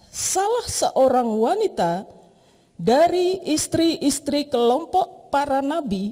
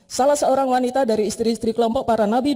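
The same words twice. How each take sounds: First: Each word is given its own emphasis. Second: It is read evenly without special emphasis. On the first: "ketika kita beri penekanan di setiap kata" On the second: "Dia bisa membaca begini"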